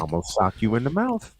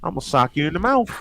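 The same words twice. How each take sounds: First: It is said in a plain accent. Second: It is said with a Southern twang.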